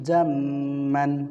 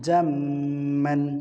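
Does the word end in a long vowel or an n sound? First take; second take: n sound; n sound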